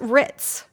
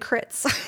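First: The name starts with an R sound. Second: The name starts with a K sound. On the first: The speaker calls it right. "So it's pronounced Ritz" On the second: The speaker calls it wrong. "Because I was saying Crits"

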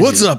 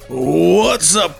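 First: It is said with more energy. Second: It is said with little energy.

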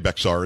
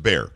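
First: The x is sounded, giving two syllables. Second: The x is silent, giving one syllable. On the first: The speaker calls it wrong. "Don't say Bexar" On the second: The speaker calls it right. "It's Bear. That's how we pronounce it here"

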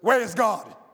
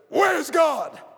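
First: It is said at a normal loudness. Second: It is shouted very loudly.

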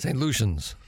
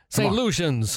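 First: It is said at a normal, quieter volume. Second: It is said louder and with more energy.

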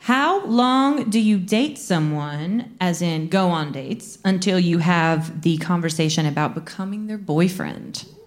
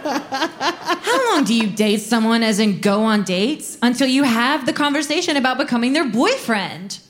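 First: It is read slowly. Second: It is read fast.

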